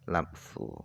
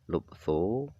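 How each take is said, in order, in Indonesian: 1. Huruf vokal pertama adalah bunyi 'a'. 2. Huruf vokal pertama adalah bunyi 'u'. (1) "dengan dibaca fathah huruf lamnya" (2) "dengan dibaca dhammah huruf lamnya"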